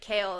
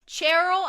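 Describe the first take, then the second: First: The name is said without an R, like Kale. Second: The name is said with an R, like Cheryl. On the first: "there was a way of someone pronouncing it and it was like Kale" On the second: "Do you know how I pronounced it until Kingdom of Ash?"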